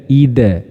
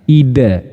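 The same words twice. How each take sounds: The two takes are said the same way.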